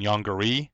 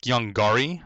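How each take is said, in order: First: Yongari with a reduced middle, "YONG-guh-ree"; softer pronunciation. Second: Yongari with a full open "gar" in the middle; preferred pronunciation. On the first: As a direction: say Yongari with a light, unstressed second syllable. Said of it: "a little bit tougher than". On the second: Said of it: "it sounds a little bit tougher". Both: Shown as a demonstration.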